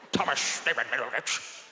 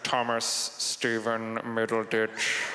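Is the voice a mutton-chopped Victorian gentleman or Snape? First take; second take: Victorian gentleman; Snape. First: It is in a mutton-chopped Victorian gentleman's voice. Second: It is in an imitation of Snape's voice.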